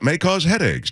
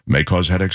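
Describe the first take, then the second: First: It is read in an excited, upbeat tone. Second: It is read in a subdued, changed tone. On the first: The side effects sound as positive as the product. The speaker calls it right. "you're supposed to read them in that same tone" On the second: The side effects are set apart as a warning. The speaker calls it wrong. "don't change the tone. Don't say"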